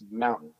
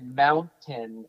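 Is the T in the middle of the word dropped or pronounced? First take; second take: dropped; pronounced. First: The middle T is dropped. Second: The middle T is clearly pronounced. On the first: "There's no T towards the end of those words" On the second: "I don't say mountain"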